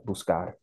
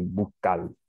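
First: Said in the usual way. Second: "Buscar" said Dominican-style as "bukal"; mimicked Dominican accent. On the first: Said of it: "so I say". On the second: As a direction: drop the s in "Buscar" and end it on an l. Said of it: "I'm mimicking what he's saying".

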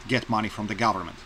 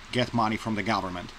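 Both takes have the same delivery.

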